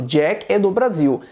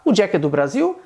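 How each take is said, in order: First: "Jack é do Brasil" stated slowly, falling on "Brasil"; statement intonation. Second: "O Jack é do Brasil" with "Brasil" rising; question intonation. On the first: Teacher recalls what was affirmed, as a falling statement. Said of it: "eu estava afirmando". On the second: Teacher asks the translated example, with a rising tune. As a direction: ask "O Jack é do Brasil", lifting the end. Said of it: "se eu quiser perguntar". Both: Shown as a demonstration.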